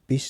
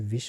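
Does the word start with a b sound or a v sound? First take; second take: b sound; v sound. First: The word starts with a b sound. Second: The word starts with a v sound. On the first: The speaker calls it wrong. "बा नहीं वाह होता है" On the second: The speaker calls it right. "बा नहीं वाह होता है"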